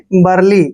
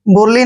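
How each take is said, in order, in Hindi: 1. पहला स्वर 'uh' जैसा सुनाई देता है। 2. पहला स्वर 'oo' जैसा सुनाई देता है। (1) "बरली पढ़ना है" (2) "बुरली नहीं पढ़ना है आपने"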